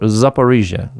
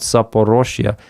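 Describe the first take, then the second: First: The third vowel of the name is 'i'. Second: The third vowel of the name is 'o'. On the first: The speaker calls it right. "Zaporizhia, not Zaporozhye" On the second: The speaker calls it wrong. "not Zaporozhye"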